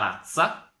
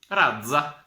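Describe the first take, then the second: First: The z is given its first, breed sound. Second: The z is given its other, fish sound. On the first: It means a breed of dogs. "se mi qua la Z la leso in un modo" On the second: It means a kind of fish. "con che altra Z della lingua italiana"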